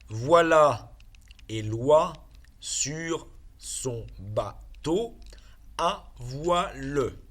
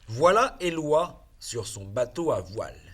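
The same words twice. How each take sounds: First: The sentence is read slowly. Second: The sentence is read quickly. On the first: "Je lis doucement" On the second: "Je relis rapidement, normalement"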